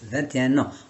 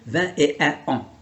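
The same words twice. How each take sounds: First: The n sound links into the following word. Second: The n sound is not linked to the following word. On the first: The speaker calls it right. "je fais la liaison entre le N et le A" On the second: The speaker calls it wrong. "On va pas dire vingt et un ans. c'est pas joli"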